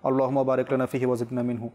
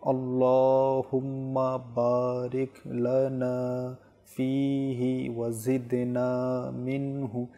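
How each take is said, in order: First: It is recited very fast with letters rushed. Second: It is recited very slowly and deliberately. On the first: "এতই দ্রুত করে ফেলে" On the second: "একদমই ধীরে স্থিরে"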